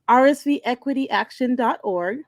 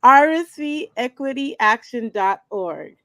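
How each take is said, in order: First: It is said at normal speed. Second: It is said more slowly.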